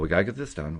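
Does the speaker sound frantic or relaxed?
relaxed. It sounds calm and relaxed.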